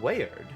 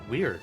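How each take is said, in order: First: The name is pronounced the ordinary way. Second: The name is pronounced like the word weird.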